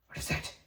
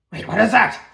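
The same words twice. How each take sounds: First: Hushed, quick question under the breath; puzzled Gorham. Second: High, loud startled question; alarmed Wolf Shadow. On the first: Gorham reacting to something in the room, hushed and puzzled. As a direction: murmur it softly, puzzled. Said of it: "Gorham is like". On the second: Wolf Shadow as the body stirs, loudly alarmed. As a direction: burst out in sudden alarm. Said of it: "Wolf Shadow is like". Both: Acted.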